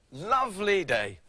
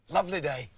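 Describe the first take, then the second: First: Slow, drawn-out contentment; savouring. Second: Said in the usual way. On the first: Acted. Man enjoying a peaceful day, slow savouring. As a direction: stretch LOVELY out slowly, relishing it.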